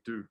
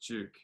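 First: The word begins with a plain d sound. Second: The word begins with a j-like sound. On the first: The speaker calls it wrong. "They say Duke" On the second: The speaker calls it right. "no, it's Duke"

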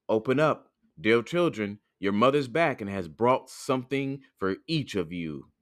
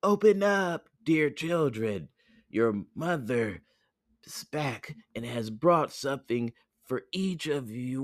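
First: It is said in a gruff voice. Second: It is said in a soft voice.

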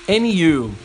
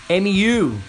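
No difference in how they are said.

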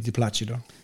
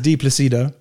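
First: The name is said with Italian pronunciation. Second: The name is said with English pronunciation. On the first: "if you're in Italian pronunciation would be di Placido" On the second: "English is di Placido"

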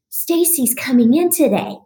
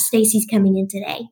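First: It is said in a pleased, welcoming tone. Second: It is said in a dismayed, dreading tone. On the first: The doctors are glad she is coming. "the intonation's totally different in my mind" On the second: The doctors dread her visit. "they're going to go, oh gosh"

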